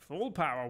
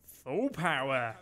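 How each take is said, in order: First: Said in the usual way. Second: Slow, commanding order to the crew; drawn-out captain's order. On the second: Acted. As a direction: stretch it out like a sub captain barking orders. Captain orders full speed.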